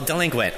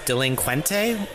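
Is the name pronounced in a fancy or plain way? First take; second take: plain; fancy. First: The name is pronounced as a plain word. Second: The name is pronounced in a fancified way. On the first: The speaker calls it right. "I think it's just delinquent" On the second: The speaker calls it wrong. "I'll probably pronounce it wrong"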